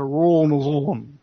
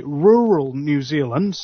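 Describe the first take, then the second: First: "rural New Zealand" slurred, with rolling R's; lazy-jawed "rural New Zealand", R's rolled and run together; southern rolled R's. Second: Said in the usual way. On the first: Shown as a demonstration. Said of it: "more of the rolling of the R's". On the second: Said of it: "whereas you would say".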